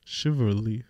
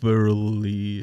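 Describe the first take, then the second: First: Chivalry in one piece, softer; tentative, questioning "Chivalry"; second attempt. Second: Chivalry slowly broken into pieces; tentative, split-up "Chivalry"; halting attempt. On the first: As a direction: try "Chivalry" joined up, rising at the end. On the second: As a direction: feel your way through "Chivalry", pausing after the first syllable. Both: Shown as a demonstration. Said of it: "Kannst du das aussprechen?".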